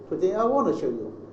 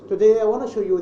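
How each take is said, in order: First: Every word is fully stressed. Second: The small words are weak and reduced. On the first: The speaker calls it wrong. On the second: The speaker calls it right.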